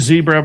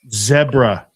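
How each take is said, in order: First: It is said with a plain American pronunciation. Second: It is said British-style, rhyming with Deborah.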